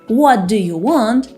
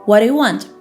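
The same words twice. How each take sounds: First: Each word is said clearly and separately. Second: The words run together into one blur.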